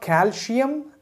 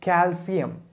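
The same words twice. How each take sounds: First: The middle sound is a sh. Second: The middle sound is a plain s. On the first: The speaker calls it wrong. "there is no she in the word calcium ... So it's not calcium" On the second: The speaker calls it right. "it's calcium"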